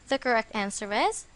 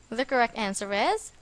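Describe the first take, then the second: No difference in how they are said.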